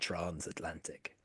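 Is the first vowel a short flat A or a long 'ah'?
long ah. The first vowel is a long southern 'ah'.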